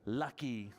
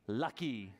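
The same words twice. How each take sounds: The two takes are said the same way.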